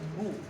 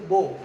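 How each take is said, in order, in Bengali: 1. স্বরধ্বনিটি 'u' এর মতো শোনায়। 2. স্বরধ্বনিটি 'o' এর মতো শোনায়। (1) "তা কি করতে হবে?" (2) "ও কার পড়া যাবে না, যেমন বো"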